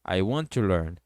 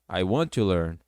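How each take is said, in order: No difference in how they are said.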